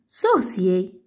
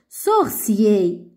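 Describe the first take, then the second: First: The word is said at a faster pace. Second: The word is said at a slow pace. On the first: "Un peu plus vite" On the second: "je vais lire ce mot-là"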